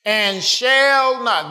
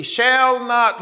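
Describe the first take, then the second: First: "shall not" slow, high and loud; preacher hammering "shall not"; stress on shall not. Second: "shall not" punched high and loud; preacher repeating "shall not" for emphasis; stress on shall not. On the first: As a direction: lean hard on "shall not", drawn out. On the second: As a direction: hit "shall not" hard as the key. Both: Shown as a demonstration. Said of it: "there's the key".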